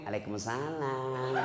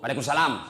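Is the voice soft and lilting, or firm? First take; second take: soft lilting; firm. First: It is said in a soft, lilting voice. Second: It is said in a firm, brisk voice.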